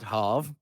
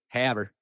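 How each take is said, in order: First: The name is said in a non-American way. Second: The name is said in a fully American way. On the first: The speaker calls it wrong. "it's not Hav or anything" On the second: The speaker calls it right. "It is like literally the most American pronunciation"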